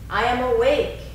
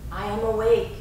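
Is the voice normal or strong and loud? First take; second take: strong; normal. First: It is said in a strong, loud voice. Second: It is said in a regular speaking voice. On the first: "first in a strong voice" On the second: "Now taking it into a regular speaking voice"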